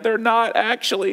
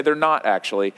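First: Higher-pitched insistent denial, lightly imitating an upset child; mock-tearful child insisting, without real sobs; crying child, imitated. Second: Low, unbothered deadpan denial. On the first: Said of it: "And he's crying". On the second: Retold or imitated. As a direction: imitate a child's matter-of-fact contradiction, pitched low. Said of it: "he'll look at you deadpan".

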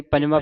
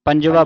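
First: ਪੰਜਵਾਂ with a nasal final vowel; nasalised ending. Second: ਪੰਜਵਾ with an open, un-nasalised final vowel; no nasal ending. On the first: Teacher showing students the form to avoid, nasalised ending. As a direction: say ਪੰਜਵਾਂ as if written with a bindi. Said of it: "ਬਿੰਦੀ ਲਾ ਕੇ ਉਚਾਰਨ ਨਹੀਂ ਕਰਨਾ". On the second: Teacher showing students the correct reading, no nasal ending. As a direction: say ਪੰਜਵਾ without any bindi sound. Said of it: "ਬਿੰਦੀ ਨਹੀਂ ਲਾਉਣੀ". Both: Shown as a demonstration.

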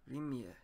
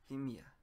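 The two takes are said the same way.

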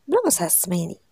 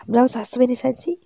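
First: Said in the usual way. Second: Mild raised-voice warning; narrated yell. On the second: A narrator's reading. Husband warns wife not to anger him, mild narrated yell. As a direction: repeat it more forcefully, a restrained yell. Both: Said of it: "تيغوت".

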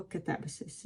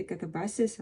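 First: "Кетебасіс" with the stress moved; alternative stress variant. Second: "Катабасіс" with one of two accepted stresses; first stress variant. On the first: Offering viewers both stresses, alternative stress variant. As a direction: say "Кетебасіс" as the other stress option. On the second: Offering viewers both stresses, first stress variant. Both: Shown as a demonstration. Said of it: "робити обидва наголоси".

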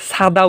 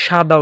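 First: সাদা mispronounced with English-like s, not sh. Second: সাদা opening on a hushing sh, not s. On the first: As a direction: say সাদা with a sharp s, "sada". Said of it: "উচ্চারণ করি না". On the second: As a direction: say সাদা with sh, "shada". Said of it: "উচ্চারণ করি". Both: Shown as a demonstration.

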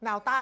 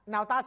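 Both takes have the same delivery.

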